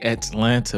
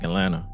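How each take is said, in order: First: Atlanta is said carefully, the way outsiders expect. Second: Atlanta is said in a relaxed local way. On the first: This is how others want it said. "They be trying to get us to say Atlanta" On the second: This is how it naturally comes out. "but I be like Atlanta"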